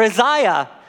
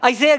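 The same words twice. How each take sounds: First: The name is said in a careful formal pronunciation. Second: The name is said in a casual everyday pronunciation. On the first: The speaker calls it right. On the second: The speaker calls it wrong.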